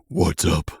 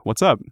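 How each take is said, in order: First: Lightly voiced dragon, lower than usual; mysterious voice. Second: Lightly voiced laid-back character; casual greeting. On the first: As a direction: drop it lower for an ancient dragon. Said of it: "then you hear a voice say". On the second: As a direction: toss it out casually, a touch louder. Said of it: "strolls over there casually, leans against the wall".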